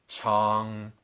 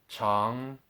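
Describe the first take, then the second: Both takes have the same delivery.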